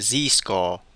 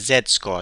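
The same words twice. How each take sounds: First: It is said with a non-UK pronunciation. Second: It is said with a UK pronunciation.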